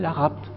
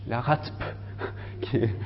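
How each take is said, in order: First: It is pronounced as a single word. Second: Each letter is spelled out separately. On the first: It would be an acronym rather than an initialism. The speaker calls it wrong. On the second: It is an initialism, not an acronym. The speaker calls it right.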